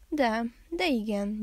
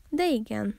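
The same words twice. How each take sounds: First: Slow, stumbling, flustered reply; awkwardly groaned admission; embarrassed groan. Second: Lightly intrigued bear; a touch of curiosity in a growly yes; curious grumble. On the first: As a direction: hesitate in mild embarrassment. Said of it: "nyögte nagy zavarában a mackó". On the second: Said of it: "dormogta kíváncsi a medvepapa". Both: A narrator's reading.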